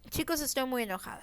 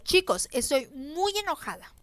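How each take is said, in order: First: The voice sounds calm, not angry at all. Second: The voice sounds truly angry and stern. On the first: The listener does not believe the anger. The speaker calls it wrong. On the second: The listener believes the anger. The speaker calls it right.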